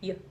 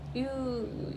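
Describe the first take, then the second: First: The word has a short schwa vowel. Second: The word has a full oo vowel. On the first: "you can just say Y, Y with a schwa" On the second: "instead of going U"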